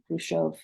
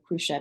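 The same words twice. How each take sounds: First: The name is said with a Russian-like pronunciation. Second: The name is said with the usual American pronunciation.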